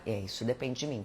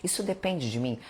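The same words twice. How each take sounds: First: "isso depende de mim" answered flatly, tune falling; answering yourself. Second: "Isso depende de mim?" asked with a rising questioning tune; "Isso depende de mim?" as a self-check question, tune lifting at the end; asking yourself. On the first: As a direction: let "mim" drop as a calm conclusion. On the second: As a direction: raise the pitch on "depende" as a real question. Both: Pretend. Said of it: "Faz essa pergunta".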